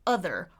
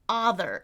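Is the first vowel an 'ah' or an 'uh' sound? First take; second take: uh; ah. First: The first vowel is a short 'uh' sound. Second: The first vowel is an open 'ah' sound. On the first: The speaker calls it right. "instead of uh, other" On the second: The speaker calls it wrong. "people often say ah, other"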